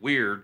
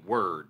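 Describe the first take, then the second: First: The vowel sounds like the one in beard. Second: The vowel sounds like the one in bird. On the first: "I'm pronouncing it weird because I think it's funny" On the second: "It could just as easily be word"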